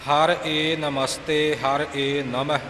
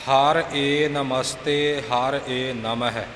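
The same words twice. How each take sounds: The two takes are said the same way.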